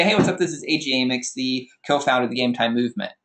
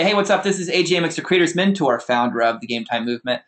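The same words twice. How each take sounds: First: Said in the usual way. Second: Upbeat, charismatic intro with a lift on hey; elevated persona. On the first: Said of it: "So I could say". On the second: Shown as a demonstration. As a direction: sell yourself with bright, confident energy. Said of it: "I have, like, this elevated persona".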